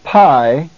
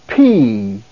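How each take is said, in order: First: The letter name rhymes with 'eye'. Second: The letter name rhymes with 'see'. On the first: This is the classical Greek pronunciation. The speaker calls it wrong. "not pi, as in classical" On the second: This is the Koine Greek pronunciation. The speaker calls it right. "but P"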